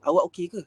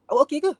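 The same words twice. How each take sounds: First: Said in the usual way. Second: Sharp high rising "Awak okey ke?", a bit louder; misread tone. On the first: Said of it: "Kita mungkin nak tanya". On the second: Shown as a demonstration. Lecturer showing how the reader hears it harshly. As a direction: read "Awak okey ke?" high and pointed, like an accusation. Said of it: "tapi dia baca".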